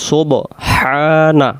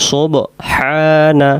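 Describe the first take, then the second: The two takes are said the same way.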